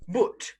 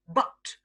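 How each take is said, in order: First: The vowel is a long oo sound. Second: The vowel is a short u sound. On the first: "pronounced with a long oo sound" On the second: "pronounced with the short U sound"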